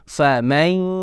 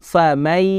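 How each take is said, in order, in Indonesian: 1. Bunyi itu keluar melalui hidung. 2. Tidak ada bunyi yang keluar melalui hidung. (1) "harus dibaca dengan cara masuk ke rongga hidung" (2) "tidak ada pengaruh suara yang masuk ke hidung"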